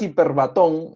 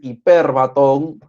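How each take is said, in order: First: The stress is not on the E syllable. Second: The stress is on the E syllable. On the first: The speaker calls it wrong. "no le digas hiperbatón" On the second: The speaker calls it right. "Porque la tilde está en la E, es hiperbatón"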